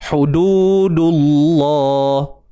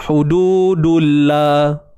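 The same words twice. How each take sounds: First: The L in Allah is heavy and dark. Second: The L in Allah is light and thin. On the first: The speaker calls it right. "maka tebal lah eh" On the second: The speaker calls it wrong. "kalau nipis macam mana?"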